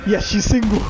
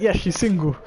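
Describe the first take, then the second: First: Gleeful thought. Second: Said in the usual way. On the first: Retold or imitated. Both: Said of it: "I was like".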